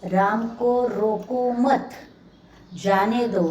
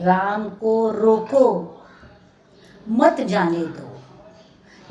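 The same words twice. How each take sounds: First: The pause comes after the word 'mat'. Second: The pause comes before the word 'mat'. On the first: Do not stop him; let him go. "यानी रुकना रोकना नहीं है" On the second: Stop him; do not let him go. "यानी जाने के लिए रोकना है"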